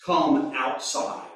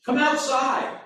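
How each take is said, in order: First: Gentle invitation. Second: "Come outside." sharp and high, exclaimed; the pastor exclaims the literal Greek command; exclamation. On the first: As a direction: coax "Come outside" gently, slowly. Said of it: "I want you to come out". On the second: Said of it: "It's an interjection, an exclamation". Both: Shown as a demonstration.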